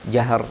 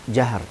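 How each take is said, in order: Both takes have the same delivery.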